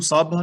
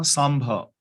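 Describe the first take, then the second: First: ਸਾਂਭਾ said without its nasal, as "saabha"; misreading of ਸਾਂਭਾ. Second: ਸਾਂਭਾ with a nasal "m" sound, as "saambha"; correct reading of ਸਾਂਭਾ. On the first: Teacher warns listeners how not to read the verse, ਸਾਂਭਾ mispronounced without nasal. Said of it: "ਨਹੀਂ ਪੜ੍ਹਨਾ". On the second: Teacher shows listeners how to read the verse, ਸਾਂਭਾ pronounced with its nasal. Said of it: "ਇਹਨੂੰ ਸਾਂਭਾ ਨਹੀਂ ਪੜ੍ਹਨਾ". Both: Shown as a demonstration.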